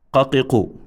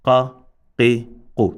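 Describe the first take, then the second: First: "qa, qi, qu" run straight together as one word; connected syllables. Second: "qa, qi, qu" with a pause after each short syllable; separated syllables. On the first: Teacher showing a wrong joined reading, "qa, qi, qu" connected. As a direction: say "qa, qi, qu" joined, without gaps. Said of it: "So one cannot say". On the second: Teacher showing a wrong split reading, "qa, qi, qu" separated. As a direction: keep "qa, qi, qu" apart as single letters. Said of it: "nor can he say". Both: Shown as a demonstration.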